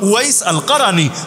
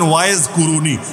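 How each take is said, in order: First: It is said as 'Uwais al-Qarani', with 'al'. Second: It is said as 'Waiz Kuruni', without 'al'. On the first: The speaker calls it right. "মূল হলো উয়াইস আল কারানি" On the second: The speaker calls it wrong. "ওয়াইজ কুরুনি ভুল উচ্চারণ"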